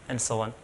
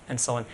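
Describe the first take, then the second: Both takes have the same delivery.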